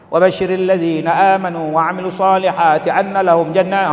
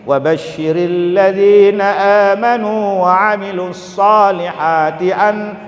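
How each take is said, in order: First: It is recited very quickly. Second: It is recited at a medium pace.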